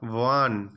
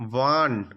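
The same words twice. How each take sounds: First: The word starts with a w sound. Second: The word starts with a w sound.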